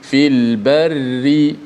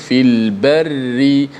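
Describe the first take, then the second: First: The r sound is light and thin. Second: The r sound is light and thin.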